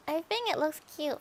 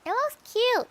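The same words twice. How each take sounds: First: Said in the usual way. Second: "cute" squealed high and bright. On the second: Real, not acted. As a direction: coo the word "cute" up high, then drop.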